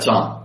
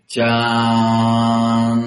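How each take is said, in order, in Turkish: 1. Ünlü kısa tutulur. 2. Ünlü uzatılarak söylenir. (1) "Amma bizdə deyirlər can" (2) "Mədd eləyəndə hə"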